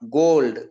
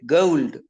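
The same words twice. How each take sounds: First: The vowel is a single pure o sound. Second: The vowel glides from one sound into another. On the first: The speaker calls it wrong. "not gold" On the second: The speaker calls it right. "They will say gold"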